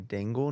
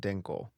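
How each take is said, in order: First: The middle consonant is a hard g sound. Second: The middle consonant is a k sound. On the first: The speaker calls it right. "I want to say Dingle" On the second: The speaker calls it wrong. "not Dinkle"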